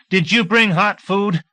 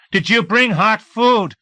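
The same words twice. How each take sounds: First: Higher, louder, slow eager plea; eager question. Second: Much higher, louder, slow desperate ask; insistent plea. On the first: Hungry deputy asking Singleton, eager plea. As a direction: press them hopefully for food. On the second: Hungry deputy turning to the others, more insistent plea. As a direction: beg again more urgently. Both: A narrator's reading.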